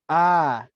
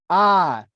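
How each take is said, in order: First: The sound is soft and half hushed. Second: The sound is loud, like outdoor calling. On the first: "I tried a semi-hushed hushed tone" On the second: "I tried using my outside voice next"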